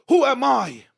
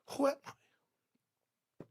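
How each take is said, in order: First: High, loud burst of self-doubt; loud incredulous cry. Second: Slow whisper trailing away; hushed self-doubt. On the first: Preacher voicing people afraid to shine, loud incredulous cry. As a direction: cry it out as the climax. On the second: Preacher voicing people afraid to shine, hushed whisper. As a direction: whisper it, barely voiced. Same question repeated, hushed. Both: Acted.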